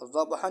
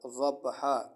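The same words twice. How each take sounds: First: The word ends with an n sound. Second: The word ends with a long a vowel. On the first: The speaker calls it wrong. "दो तनवीन ना पढ़ करके ... ज़बहा नहीं पढ़ा जाएगा" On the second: The speaker calls it right. "बल्कि अलिफ पढ़ा जाएगा ... बल्कि क्या पढ़ा जाएगा? ज़बहा।"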